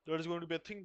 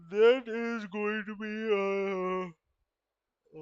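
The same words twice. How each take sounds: First: Said in the usual way. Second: Slow, high and loud, stretched out; drawn-out loud. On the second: Real, not acted. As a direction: stretch it out loudly, reaching for words. Restarts same phrase differently.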